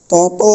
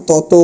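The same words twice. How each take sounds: First: তত with open অ at the end, "tawtaw"; wrong open ending. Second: তত said as "toto", ending in ও; final o sound. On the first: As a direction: keep the last vowel of তত open. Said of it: "বলতে পারবো না". (ভুল উচ্চারণ: তত, শেষে অ) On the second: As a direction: round the end of তত to a held o. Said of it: "ও বলবো". (শেষে ও দিয়ে: ততো) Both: Shown as a demonstration.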